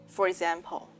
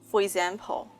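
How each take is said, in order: Both takes have the same delivery.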